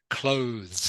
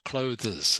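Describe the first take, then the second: First: It is said as one syllable ending in z. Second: It is said with an extra syllable, like closes. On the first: The speaker calls it right. "almost like it's pronounced C L O Z" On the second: The speaker calls it wrong. "it's not clothes"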